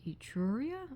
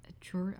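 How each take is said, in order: First: "Etruria" sounded out in full with a questioning rise; tentative pronunciation. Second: "Etruria" started with a reduced first vowel, uh-TROR, trailing unfinished; second pronunciation try. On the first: Vlogger guessing a Wedgwood name, "Etruria" said as a rising question. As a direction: try "Etruria" as ee-TROO-ree-a, unsure, lifting the end. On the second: Vlogger overthinking a Wedgwood name, "Etruria" tried as a cut-short uh-TROR. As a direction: break off "Etruria" after uh-TROR, unsure. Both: Real, not acted. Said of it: "how would you say that?".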